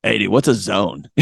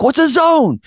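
First: Sheepish question. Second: High-pitched, baffled question; retold clueless coach, squeaking upward; clueless repeat. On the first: Retold or imitated. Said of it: "I start laughing. I was like". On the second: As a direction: ask it again, voice shooting up. Repeats question to stunned team.

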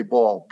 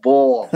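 First: Said in the usual way. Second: Put-on "ball" punched out louder in heavy New York accent; exaggerated New York accent. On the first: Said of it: "They'd, like, say". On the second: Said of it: "we would really pour it on".

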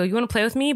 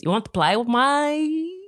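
First: Said in the usual way. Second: Slow, high mimicked accent, vowels stretched; exaggerated accent with PLAY said like "ply"; child's put-on accent. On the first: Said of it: "But he doesn't say". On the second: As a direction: imitate a kid's drawling play accent, rising at the end. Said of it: "he does accents all the time".

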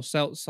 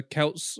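First: "Celts" with a soft S sound; "Celts" starting with S; pronunciation variant. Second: "Celts" with a hard K sound; "Celts" starting with K; pronunciation variant. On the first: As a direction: say "Celts" as if spelt Selts. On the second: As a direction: say "Celts" as if spelt Kelts. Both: Shown as a demonstration. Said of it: "don't know how you pronounce it".

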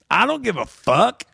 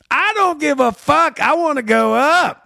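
First: Shrugging imitation of the comic; gruff reply. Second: Hammed-up defiant comic demanding the stage; imitated drunk comic insisting loudly; mock insistent shout. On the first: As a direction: toss it off like a don't-care comic.

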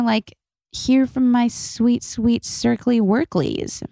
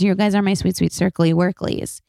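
First: Cooing. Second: Said in the usual way. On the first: Real, not acted. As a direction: coo it like talking to a pet. Cooing pet name to listeners.

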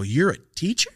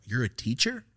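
First: Higher, louder, openly disbelieving question; really can't believe it, pitch up; incredulous. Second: A first, quieter unsure question; mild disbelief. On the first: To the teacher in sweats, asked again in loud disbelief. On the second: To the scruffy teacher, a quiet doubtful question. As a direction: ask it half-believing, rising at the end. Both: Retold or imitated.

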